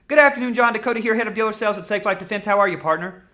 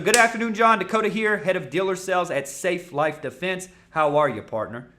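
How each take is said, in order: First: It is said fast at one flat pace. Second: It slows down and speeds up with varied tone. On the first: The speaker calls it wrong. "You think you're going to sell like that? Doesn't work. It's not about talking fast" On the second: The speaker calls it right. "That's right there. Beautiful"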